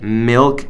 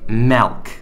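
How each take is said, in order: First: The vowel sounds like an 'i'. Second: The vowel sounds like an 'e'. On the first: The speaker calls it right. "it's milk. M I L K" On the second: The speaker calls it wrong. "It's not milk. There's no E in milk"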